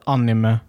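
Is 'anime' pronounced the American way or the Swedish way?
Swedish. The word is pronounced with a Swedish accent. "Så anime säger man väl typ kanske mer här"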